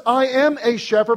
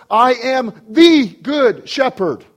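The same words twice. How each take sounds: First: "I am a shepherd" preached high, weight on AM; high-pitched "I AM a shepherd", held back from the climax; stress on AM. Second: "THE good shepherd" slow, high and loud, word by word; slow emphatic "I am THE good shepherd"; stress on THE. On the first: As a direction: set up the contrast with "a shepherd". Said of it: "not just". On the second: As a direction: land hard on THE, then spell out "good shepherd". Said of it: "but he says". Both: Acted.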